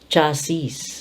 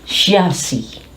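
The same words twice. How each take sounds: First: It begins with a 'ch' sound. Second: It begins with a 'sh' sound. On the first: "forever they will say chassis" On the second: "C H has the sound of S H, and the S I S is sounded as C"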